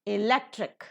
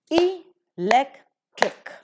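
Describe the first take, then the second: First: "electric" as one word, stressed on LEC; stress before the suffix. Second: "electric" very slowly as three pieces, e-lec-tric; syllable by syllable. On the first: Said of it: "la is given the stress". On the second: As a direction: break "electric" apart with pauses between syllables. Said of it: "trisyllabic word it is". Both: Shown as a demonstration.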